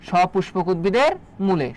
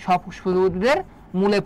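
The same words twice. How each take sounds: The two takes are said the same way.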